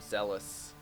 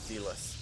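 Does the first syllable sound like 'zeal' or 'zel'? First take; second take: zel; zeal. First: The first syllable sounds like 'zel'. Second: The first syllable sounds like 'zeal'. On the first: The speaker calls it right. "the word zealous is not zealous" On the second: The speaker calls it wrong. "is not zealous"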